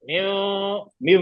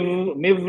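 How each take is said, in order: First: "म्यू" stretched very slowly through the nose; nasal ghunna. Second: "म्यू" with no nasal hum; wrong without nasal. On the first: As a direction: hold "म्यू" as a long nasal hum. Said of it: "इसकी भी नाक से आवाज आ रही है". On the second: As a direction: say "म्यू" short, keeping it out of the nose. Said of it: "नून की आवाज ही नहीं आई". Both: Shown as a demonstration.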